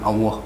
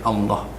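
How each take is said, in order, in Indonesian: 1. Bunyi L-nya pendek, tidak didobel. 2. Bunyi L-nya ditahan panjang, didobel. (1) "Jadi bukan Allah" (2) "Jadi L-nya di double"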